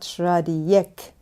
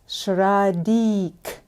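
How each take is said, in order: First: The name ends with an extra 'yek' syllable. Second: The name ends with a short 'dik' sound. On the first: The speaker calls it wrong. "and not Shradiyek. No ik" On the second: The speaker calls it right. "it's Shradik"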